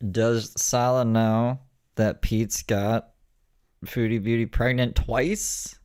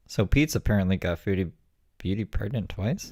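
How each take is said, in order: First: 1 slow quoted read. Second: Said in the usual way. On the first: Retold or imitated. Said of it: "I saw a clip that was like". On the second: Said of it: "I saw a clip".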